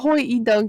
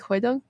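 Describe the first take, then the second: First: The name is said with three syllables. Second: The name is said with two syllables. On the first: The speaker calls it wrong. "I don't think is how you say it" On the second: The speaker calls it right. "but maybe like Hoi Dunk or something like that"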